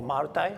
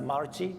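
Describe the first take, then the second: First: "multi" ending like the word tie; pronounced "mul-tie". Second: "multi" ending in a tee sound; pronounced "mul-tee". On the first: Asking listeners about pronunciation, "multi" as mul-tie. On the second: Asking listeners about pronunciation, "multi" as mul-tee. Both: Shown as a demonstration. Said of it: "is it right to pronounce".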